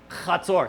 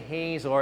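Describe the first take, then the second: First: The name starts with a throaty ch sound. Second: The name starts with a plain h sound. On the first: The speaker calls it right. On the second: The speaker calls it wrong.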